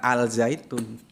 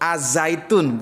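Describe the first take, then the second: First: The article's l is clearly pronounced before z. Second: The article's l blends into the following z. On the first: The speaker calls it wrong. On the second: The speaker calls it right. "Jadi yang betul itu"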